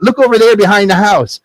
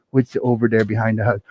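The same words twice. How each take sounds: First: Put-on excited boy character. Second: Low, very soft muttered question; quiet wondering. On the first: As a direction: point it out eagerly as the son. Jack shows his mother the gold. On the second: Acted. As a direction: mumble it to oneself as the mother. Mother turns to look.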